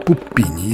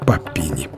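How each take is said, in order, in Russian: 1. Первая гласная звучит как 'oo'. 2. Первая гласная звучит как 'a'. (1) "если произносить это название как итальянское «Пуппини»" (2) "А как бы по-английски"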